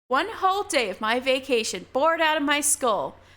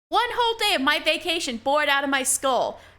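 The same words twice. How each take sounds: First: It is read in the speaker's ordinary voice. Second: It is read in a put-on character voice.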